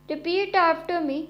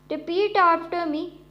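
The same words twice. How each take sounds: Both takes have the same delivery.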